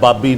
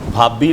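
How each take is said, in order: First: The first consonant is plain without a breath puff. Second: The first consonant is aspirated with a puff of breath. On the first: The speaker calls it wrong. "बाबी नहीं" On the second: The speaker calls it right. "भाभी लफ्ज़ है"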